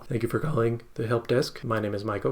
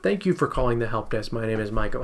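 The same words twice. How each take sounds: First: It is said flat and robotic. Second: It is said warm and lively.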